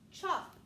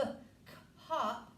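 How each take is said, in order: First: The C and H blend into one ch sound. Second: The C and H are sounded separately as k-hop. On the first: The speaker calls it right. "I would keep the C and H together as a special sound" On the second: The speaker calls it wrong. "I wouldn't say"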